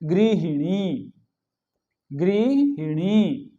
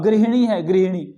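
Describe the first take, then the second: First: गृहिणी very slowly, हि clearly sounded; correct pronunciation. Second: गृहिणी quick and loud, हि reduced to ह; common mispronunciation. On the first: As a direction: draw out each syllable of गृहिणी. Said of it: "ही का प्रयोग करेंगे". (गृहिणी का शुद्ध उच्चारण, खूब खींचकर) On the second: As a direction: say गृहिणी with the middle i dropped. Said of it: "गृहिणी नहीं". (गृहिणी का अशुद्ध उच्चारण, इ दबाकर) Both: Shown as a demonstration.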